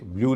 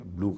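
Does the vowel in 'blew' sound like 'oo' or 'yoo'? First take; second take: yoo; oo. First: The vowel is said with a 'y' glide: 'yoo'. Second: The vowel is a plain 'oo' without glide. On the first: The speaker calls it wrong. "इसे ब्लू नहीं कहेंगे" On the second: The speaker calls it right. "ब्लू कहेंगे"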